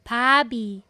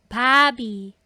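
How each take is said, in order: No difference in how they are said.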